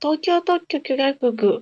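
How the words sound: It is said in a cute voice.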